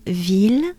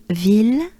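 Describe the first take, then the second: No difference in how they are said.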